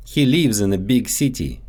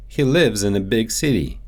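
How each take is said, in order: First: Lives said as "leevz" with a long ee; Russian-accented "lives" stretched to leevz. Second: Said in the usual way. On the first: Shown as a demonstration. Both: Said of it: "so they often get mixed up in English".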